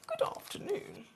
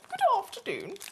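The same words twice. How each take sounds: First: It is said in a lower voice. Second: It is said in a very high voice.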